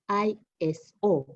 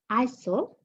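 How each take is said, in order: First: It is spelled out letter by letter. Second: It is said as a single word. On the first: It is treated as an abbreviation. The speaker calls it wrong. "and not I S O because it's not an abbreviation" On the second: It is a name, not an abbreviation. The speaker calls it right. "you refer to it as I S O"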